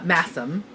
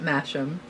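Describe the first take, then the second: First: The word is said the British way. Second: The word is said in a non-British way.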